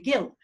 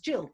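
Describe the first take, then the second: First: The name starts with a hard G sound. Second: The name starts with a J sound. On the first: This is how many people in Asia would say it. "a lot of people would naturally probably um, uh, call me Gil" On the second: This is how the owner says his own name. "the way I call my name, which is Jill"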